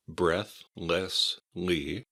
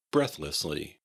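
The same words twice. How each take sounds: First: "breathlessly" very slowly, in three separate syllables. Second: Said in the usual way. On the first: Shown as a demonstration. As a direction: break up "breathlessly": breath, less, lee, with pauses. Teacher breaks the word into syllables.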